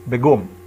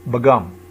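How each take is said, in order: Both takes have the same delivery.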